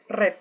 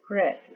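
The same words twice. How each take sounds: First: The vowel is crisp and open, Spanish-like. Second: The vowel is softer and more muted. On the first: The speaker calls it wrong. "no decimos red" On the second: The speaker calls it right. "Un poco más suave y apagada"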